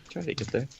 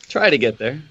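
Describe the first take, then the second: First: Quietly echoing try to get there; soft repeat. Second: Said in the usual way. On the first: Real, not acted. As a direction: say Try to get there again much softer, falling.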